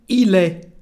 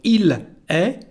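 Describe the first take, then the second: First: The two words run together into one sound. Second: The two words are said separately and fully. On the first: This is how people actually speak. "we say" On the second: This is the careful form. "instead of"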